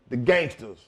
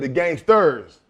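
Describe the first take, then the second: First: The word ends with an '-as' sound, no r. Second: The word ends with a clear '-ers' sound. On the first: "change that E R S to an A S" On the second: "But he said the gangsters"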